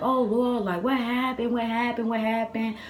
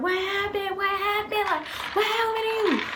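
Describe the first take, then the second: First: Higher-pitched, repeated anxious questions; mimicking grandma's worried fussing; imitated worried grandmother. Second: Very high, squealed panicked questions; hammed-up high frantic mom voice; imitated alarmed mother. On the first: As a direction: fret over the child like grandma. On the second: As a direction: shriek it in mock motherly panic. Imitates mother alarmed at crying child.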